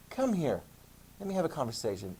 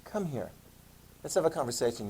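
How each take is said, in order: First: Soft, ominous summons; a hint of a quietly menacing pope; mock stern pope. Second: Softer, ominous invitation; lightly voiced dreaded parent; mock ominous summons. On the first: Teacher voices pope calling a critic in, soft and ominous. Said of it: "sometimes the Pope's like". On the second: Teacher voices a parent calling a kid in, softly ominous. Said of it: "anybody in your life that said".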